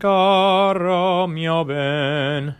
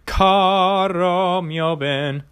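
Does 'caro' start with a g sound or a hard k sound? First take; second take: g sound; hard k. First: Caro starts with a softer, throaty g sound. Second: Caro starts with a hard, closed k sound. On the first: The speaker calls it right. "you change it to a ga" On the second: The speaker calls it wrong. "as opposed to"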